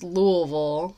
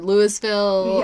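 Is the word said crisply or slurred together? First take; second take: slurred; crisp. First: The syllables are slurred smoothly together. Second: Each syllable is said clearly and separately. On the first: The speaker is a local. The speaker calls it right. "you got to let it roll off the tongue a little bit" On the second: The speaker is not from the city. The speaker calls it wrong. "a lot of people outside of Louisville say it like Louisville"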